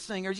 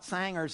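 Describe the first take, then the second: First: It is said in a standard pronunciation. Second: It is said in a regional local pronunciation. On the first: This is how it is normally said. The speaker calls it right. "instead of singers" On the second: This is how the unschooled locals say it. The speaker calls it wrong. "They talk about singers"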